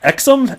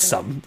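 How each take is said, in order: First: The word begins with an eks sound. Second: The word begins with a plain s sound. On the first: The speaker calls it wrong. "how do you pronounce that? Exum?" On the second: The speaker calls it right. "No, it's it's some. ... the X is actually an S"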